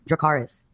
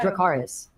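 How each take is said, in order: First: It ends forcefully like an exclamation. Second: It rises at the end like a question.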